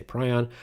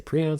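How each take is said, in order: First: "prion" said as PRY-on; pronounced PRY-on. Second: "prion" said as PREE-on; pronounced PREE-on. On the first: Co-host showing the other pronunciation, prion as PRY-on. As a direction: say prion with a long eye, PRY-on. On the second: Co-host showing one of two pronunciations, prion as PREE-on. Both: Shown as a demonstration. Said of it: "depends on how you pronounce them".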